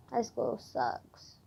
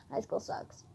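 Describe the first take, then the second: First: Very slow and soft; drawn-out grumble. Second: Very soft, nearly voiceless; quiet grumble. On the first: Student dreading her homework, slow drawn-out grumble. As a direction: stretch each word out wearily. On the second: Student sighing about homework to herself, quiet grumble. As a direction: grumble it under your breath. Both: Real, not acted.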